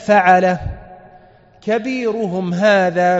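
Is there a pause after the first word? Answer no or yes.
yes. There is a pause after the first word. The speaker means he did it himself, then names the biggest idol. "قرأ هكذا بل فعله كبيرهم هذا"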